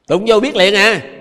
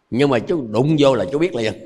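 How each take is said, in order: First: Slow loud emphasis. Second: Said in the usual way. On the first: Shown as a demonstration. Restates the shock example.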